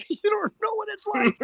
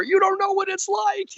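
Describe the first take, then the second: First: Much higher, whiny protest breaking into laughs; laughing as he mimics arguing with his wife. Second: Much higher and louder, whiny protest; husband yelling back at his wife, whiny and loud. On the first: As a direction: repeat the complaint while cracking up. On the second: Retold or imitated. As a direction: cry out like a cornered husband.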